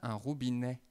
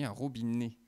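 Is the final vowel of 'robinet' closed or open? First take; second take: open; closed. First: The final vowel is open, like è. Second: The final vowel is closed, like é. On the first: The speaker calls it right. "On dit bien un robinet. Et même si j'exagère un petit peu" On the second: The speaker calls it wrong. "je me suis trompé. J'ai dit un robinet"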